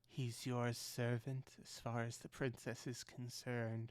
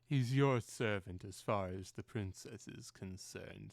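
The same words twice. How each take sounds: First: It is spoken in the speaker's normal voice. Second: It is spoken in a put-on character voice.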